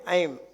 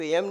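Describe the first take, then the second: First: The vowel is an 'ai' sound. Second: The vowel is a plain 'e' sound. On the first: The speaker calls it right. "ऐम है ऐम" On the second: The speaker calls it wrong. "इसको एम नहीं बोलना"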